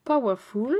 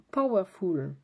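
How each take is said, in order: First: "Powerful" said loud in a full English accent as "pa-wa-ful", rising at the end; playful, exaggerated English accent; hammed-up English accent. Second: A light English accent on "Powerful", said "pow-er-ful". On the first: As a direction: belt out "Powerful" in a big mock English accent. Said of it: "mon accent anglais". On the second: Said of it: "je garde ma bonne résolution de mon accent anglais". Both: Shown as a demonstration.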